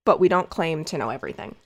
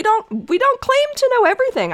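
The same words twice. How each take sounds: First: Low, quick, dry sarcastic aside; deadpan sarcasm. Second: High and fast, insisting hard; emphatic. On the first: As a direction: throw it away, dry and ironic. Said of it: "I know this may come as a surprise". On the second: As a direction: blurt it out, pitched way up. Emphatic high rush before sarcasm. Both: Real, not acted.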